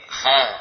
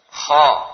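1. Diucapkan ringan, tanpa lidah terangkat. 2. Diucapkan berat, dengan lidah terangkat. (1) "bukan seperti kha" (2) "Jadi lisannya terangkat"

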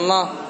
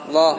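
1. Lam dibunyikan melalui hidung. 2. Lam dibunyikan tanpa bunyi sengau. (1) "Jangan sampai ke hidung" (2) "tapi kitaballah Allah"

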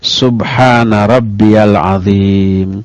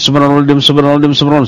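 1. Diucapkan tenang, dengan setiap vokal jelas dan tegas. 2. Diucapkan terburu-buru, dengan vokal yang tidak jelas dan kabur. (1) "jelas, orang Sunda bilang atra, jentre, eces, ya, tandas, tegas gitu" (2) "ngebut. Sampai-sampai vokalnya itu enggak jelas"

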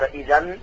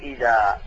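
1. تنتهي الكلمة بصوت النون. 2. تنتهي الكلمة بحركة الألف الطويلة. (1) "جعلته فتحتين وقلت إذا" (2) "عند الوقت تقول إذا"

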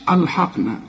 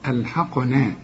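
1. الحروف الثلاثة الأولى تُنطق مفخمة. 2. فقط صوت q مفخم، والباقي مرقق. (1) "ما تقوليش ألحقنا، أل شوف أل ح خطأ، كل الثلاث حروف خطأ" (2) "القاف هي المفخمة، ألحقنا، والنون مرققة"

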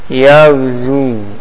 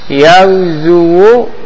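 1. Kata ini berakhir dengan 'zu' tanpa akhiran 'wu'. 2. Kata ini berakhir dengan bunyi vokal 'wu'.

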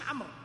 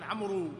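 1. الكلمة تنتهي بالراء دون حركة. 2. يُنطق صوت حركة بعد الراء الأخيرة. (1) "الاسم عمرو بس، هذه الواو زائدة" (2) "هذه تكتب ولا تنطق، وهذا يجهله كثير من الناس، ولذلك يقولون عمرو"

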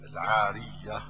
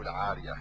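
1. صوت y مضعّف ويُمدّ أطول. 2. صوت y مفرد وقصير. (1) "يصح تشديدها" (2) "وتخفيفها"

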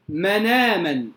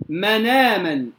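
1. النون تتصل مباشرة بالحركة بعدها. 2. النون تتصل مباشرة بالحركة بعدها.

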